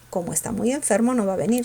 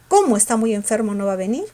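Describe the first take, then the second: First: The word 'como' is said without any stress. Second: The word 'como' is said with strong stress.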